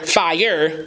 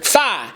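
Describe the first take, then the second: First: The word keeps its full second syllable. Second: The word is cut to one open syllable. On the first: "The word is fire" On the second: "you take off that second syllable of fire"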